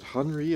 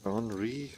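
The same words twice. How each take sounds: First: "Henri" with the H sounded; trying a pronunciation. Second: "Henri" with a silent H; alternative pronunciation. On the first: Player puzzling over a name, trying "Henri" with an H. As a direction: say "Henri" as HUN-ree, H pronounced. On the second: Player puzzling over a name, trying "Henri" without the H. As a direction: say "Henri" as AHN-ree, no H. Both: Shown as a demonstration. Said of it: "Is it Henri or H".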